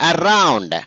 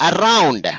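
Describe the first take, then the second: No difference in how they are said.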